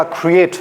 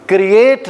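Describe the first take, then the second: First: क्रिएट with a rounded u-coloured k before r; pesh on the consonant. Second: क्रिएट with an unrounded k straight into r, the wrong take; plain consonant before r. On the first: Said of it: "consonant के ऊपर पेश पड़ता है". (क्रिएट, क पर पेश लगाकर) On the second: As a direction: say क्रिएट with no u-colour on the k. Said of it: "क्रिएट नहीं होगा". (क्रिएट, क पर पेश के बिना) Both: Shown as a demonstration.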